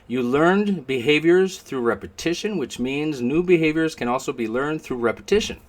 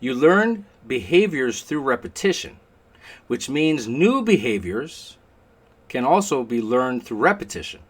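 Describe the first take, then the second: First: It is said fast. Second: It is said slowly.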